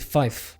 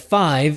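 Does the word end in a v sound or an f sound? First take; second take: f sound; v sound. First: The word ends with a voiceless f sound. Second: The word ends with a voiced v sound. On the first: "change it to a softer sound, which would be F" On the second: "Instead of five"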